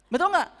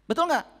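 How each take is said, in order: Both takes have the same delivery.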